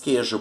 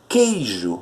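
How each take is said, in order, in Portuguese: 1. O glide 'i' cai, soando como 'quejo'. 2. A primeira sílaba tem um ditongo 'ei' completo. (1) "nós dizemos queijo por quê? Porque o I é tão fraco que acaba desaparecendo" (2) "o correto é dizer queijo"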